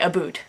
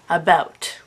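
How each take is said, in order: First: The vowel sounds like 'oo' in boot. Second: The vowel sounds like 'ow' in cow. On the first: A stereotyped pronunciation the speaker does not use. "I do not say aboot" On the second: The way the speaker actually says it. "I say about"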